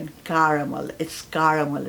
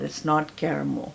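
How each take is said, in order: First: "caramel" with an open "car" first syllable, "KAR-a-mel"; "caramel" starting with "kar"; correct pronunciation. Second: "caramel" said "KER-a-mel" with a flat "e", slowly; "caramel" pronounced "kair-a-mel"; wrong pronunciation. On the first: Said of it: "both British and American". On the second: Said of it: "हम कहते हैं कैरमल". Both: Shown as a demonstration.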